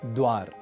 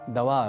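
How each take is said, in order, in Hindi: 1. d और v बिना किसी स्वर के जुड़े हुए हैं। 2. एक अतिरिक्त अ स्वर d और v को अलग करता है। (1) "जैसे एक शब्द है द्वार" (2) "अतिरिक्त रूप से अ अक्षर जोड़ लेते हैं"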